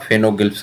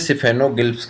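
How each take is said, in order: First: The word begins without a 'si' sound. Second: The word begins with a 'si' sound. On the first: "सिफेनो कहीं कहीं पे silent कुछ लोग पढ़ते हैं" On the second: "इसे सिफेनोगिल्फ कहते हैं"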